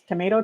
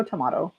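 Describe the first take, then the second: First: Tomato with a long "ay" in the middle; tomato as to-MAY-to. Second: Tomato with an open "ah" in the middle; tomato as to-MAH-to. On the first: Telling viewers it doesn't matter, tomato as to-MAY-to. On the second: Showing the other variant, tomato as to-MAH-to. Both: Shown as a demonstration. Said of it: "We all pronounce things differently".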